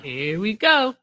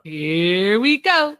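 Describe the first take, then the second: First: Dry, slow knowing tone; knowing here we go. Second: Drawn-out here we go. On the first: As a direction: say it like you saw it coming. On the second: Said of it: "Oh, here we go". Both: Real, not acted.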